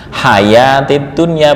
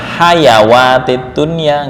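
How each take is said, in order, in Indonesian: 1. Ada a panjang tanpa bunyi w. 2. Ada bunyi w sebelum huruf a. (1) "ini itu fathah ukurannya satu alif"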